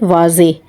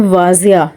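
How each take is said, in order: First: The word ends with an 'ay' sound. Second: The word ends with a 'ya' sound. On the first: The speaker calls it right. "तो ये है वाज़े" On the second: The speaker calls it wrong. "उसको भी कहते हैं वाज़िया"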